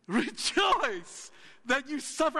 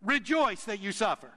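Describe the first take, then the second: First: Slow, higher, ironic sing-song with "suffer" drawn out; mock cheerful. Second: Said in the usual way. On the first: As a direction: stretch it like fake good news. Ironic repeat after mock cheer.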